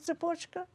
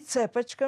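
First: The word is said in standard Russian. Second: The word is said with a Jewish accent. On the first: This is the usual form of the word. "вместо" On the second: This is how the locals said it. "Все русские и украинцы говорили с еврейским акцентом"

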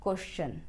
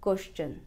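No difference in how they are said.

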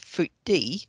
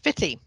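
First: The first vowel sounds like in 'foot'. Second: The first vowel sounds like in 'fit'. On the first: This is how the name is spelt. "spelt Footy" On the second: This is how locals actually say the name. "but of course pronounced Fitty"

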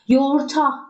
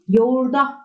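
First: The consonant before the final vowel is t. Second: The consonant before the final vowel is d. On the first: The speaker calls it wrong. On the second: The speaker calls it right. "derim. TD'ye dönüştü"

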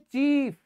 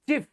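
First: The vowel is a long ee. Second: The vowel is short. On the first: The speaker calls it right. "आप बोलोगे चीफ" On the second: The speaker calls it wrong. "आप कभी ये नहीं बोलोगे चीफ"

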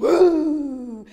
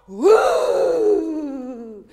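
First: The cry is at normal loudness. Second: The cry is shouted loudly.

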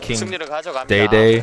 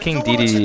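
First: The name is said with two 'day' syllables. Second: The name is said with three 'de' syllables. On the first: The speaker calls it wrong. "You know those people say King Day-Day?" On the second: The speaker calls it right. "King Dedede is how you say it"

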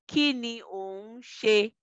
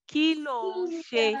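First: The phrase is said in full, unreduced form. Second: The phrase is said in contracted, shortened form. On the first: "you will say that this way" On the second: "you can contract that and basically say kilo on she"

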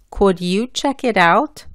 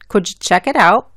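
First: Each word is said carefully and fully. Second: It is said quickly with sounds merged and dropped. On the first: "Hablando bien" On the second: "Y rápido"

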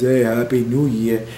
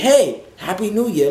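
First: It is said flatly with low energy. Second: It is said lively with high energy. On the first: The person drains the fun from the room. The speaker calls it wrong. "Don't be that guy that just rolls up talking about" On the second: The person adds to the fun. The speaker calls it right. "you wanna keep in mind your energy levels"

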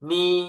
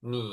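First: The pitch stays high and level. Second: The pitch dips low, then rises again. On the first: "เสียงที่หนึ่ง" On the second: "เสียงที่สาม"

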